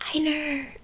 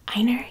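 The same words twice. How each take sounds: First: The final er sound is hard and harsh. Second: The final er sound is soft and plain. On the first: "with a really hard er" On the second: "instead of like Einer"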